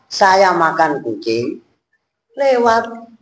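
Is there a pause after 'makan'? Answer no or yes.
no. There is no pause after 'makan'. The speaker is eating a passing cat. The speaker calls it wrong. "kalau titiknya komanya salah"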